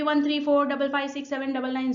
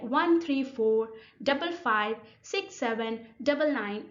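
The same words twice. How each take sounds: First: The numbers run together without pauses. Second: The numbers are split by slight pauses. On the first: "They will not sound like this" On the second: "They will sound like"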